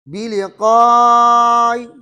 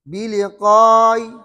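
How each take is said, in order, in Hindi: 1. स्वर को मध्यम लंबाई तक खींचा जाता है। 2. स्वर को छोटा रखा जाता है। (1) "तवसुत" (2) "कसर"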